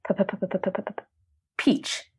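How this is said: The stuttering sounds tense and strained.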